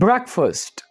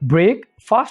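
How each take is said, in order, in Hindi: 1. पहला हिस्सा छोटे स्वर के साथ 'brek' जैसा सुनाई देता है। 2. पहला हिस्सा लंबे स्वर के साथ 'break' जैसा सुनाई देता है। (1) "इसकी जो करेक्ट प्रोनाउंसिएशन है वो है ब्रेकफास्ट" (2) "ब्रेक फास्ट इसको बोला जाता है"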